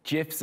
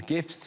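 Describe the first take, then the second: First: "gifs" with a soft g, like j. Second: "gifs" with a hard g. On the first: Presenter offering the other pronunciation, "gifs" said as jifs. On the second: Presenter listing internet content, "gifs" with a hard g. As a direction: say "gifs" with g as in gift. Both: Shown as a demonstration. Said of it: "or gifs".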